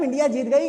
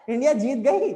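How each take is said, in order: First: India जीत गई announced loudly; loud statement of fact through to गई; information intonation. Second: गई lifted loudly at the end; loud question with a rise on गई; question intonation. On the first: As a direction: announce it as news, गई stated rather than asked. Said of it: "एक ये information भी हो सकता है". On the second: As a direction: ask it, voice climbing on गई. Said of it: "एक question भी हो सकता है". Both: Shown as a demonstration.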